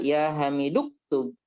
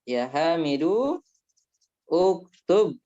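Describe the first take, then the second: First: The glottal stop is dropped, linking Hamidu into ktub. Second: The glottal stop before uktub is pronounced separately.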